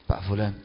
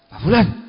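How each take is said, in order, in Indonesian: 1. Nama itu dipanggil dengan nada tenang dan lembut. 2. Nama itu dipanggil dengan nada marah dan tidak sabar. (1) "Harus orang yang lembut" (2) "Itu bisa marah ya, Pak, kalau dia orang yang bukan penyabar"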